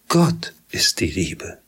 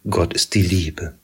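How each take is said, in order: First: The stress falls on the word Gott. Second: The stress falls on the word Liebe. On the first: God shows what love really is. The speaker calls it right. "Der Ton liegt auf Gott" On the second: Our own idea of love fills the sentence. The speaker calls it wrong. "Wir bleiben ganz bei uns, wenn wir diesen Satz so lesen"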